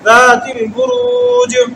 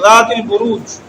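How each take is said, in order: First: The final consonant ends with an echoing bounce. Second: The final consonant stops flat without a bounce. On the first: The speaker calls it right. "इसको वक़फ़ करेंगे तो कलकला करेंगे इसके ऊपर" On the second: The speaker calls it wrong. "सीधा नहीं पढ़ेंगे इसको ज़ातिल बुरूज ऐसे नहीं"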